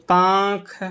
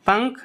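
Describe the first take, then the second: First: पांख with a long, held nasal आ; slow demonstration of the mistaken पांख; common mispronunciation. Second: पंख with a short अ before the nasal; short-vowel पंख, said on its own; correct pronunciation. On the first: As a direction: stretch the vowel in पांख. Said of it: "तो क्या पांख नहीं होता". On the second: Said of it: "क्या हो जाएगा पंख होता है". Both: Shown as a demonstration.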